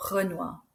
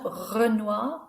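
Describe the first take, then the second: First: "Renoir" with the R rasped in the throat; throaty R demo. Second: "Renoir" with a rolled French R. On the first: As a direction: let them feel the back-of-throat R in "Renoir". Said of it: "feel it". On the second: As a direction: model "Renoir" clearly. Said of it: "the R is a rolled sound". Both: Shown as a demonstration.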